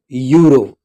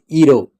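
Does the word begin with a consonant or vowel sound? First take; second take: consonant; vowel. First: The word begins with a consonant sound. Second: The word begins with a vowel sound. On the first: The speaker calls it right. "it is euro. So these are consonant sounds" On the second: The speaker calls it wrong. "this is not pronounced as euro"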